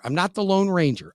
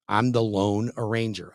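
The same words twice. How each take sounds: First: The famous name, set against the pun; Lone Ranger. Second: "loan arranger" said as two words, low. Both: Shown as a demonstration.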